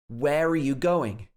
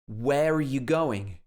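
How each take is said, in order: First: The word 'are' is reduced to a weak 'uh'. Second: The word 'are' is reduced to a weak 'uh'.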